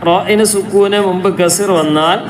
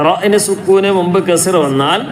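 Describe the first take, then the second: No difference in how they are said.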